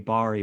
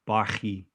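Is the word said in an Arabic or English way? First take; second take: English; Arabic. First: The word is said the English way. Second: The word is said the original Arabic way. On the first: "in English you say bari" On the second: "the actual pronunciation is like barhi"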